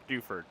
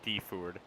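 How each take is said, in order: First: The first syllable sounds like 'doo'. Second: The first syllable sounds like 'dee'. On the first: The speaker calls it right. "Duford, not Deford" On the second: The speaker calls it wrong. "not Deford. That's a weird pronunciation"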